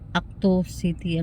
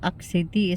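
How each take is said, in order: First: An extra o vowel follows Act. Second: Act ends in a bare t sound.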